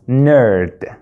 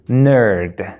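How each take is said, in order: First: It is said with an American pronunciation. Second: It is said with an American pronunciation.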